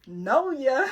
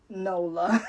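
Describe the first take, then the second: First: The middle L is replaced by a Y sound. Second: The L sound in the middle is pronounced. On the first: The speaker calls it wrong. "I kept thinking it was Noya... the L is silent" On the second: The speaker calls it right. "how to say Nola"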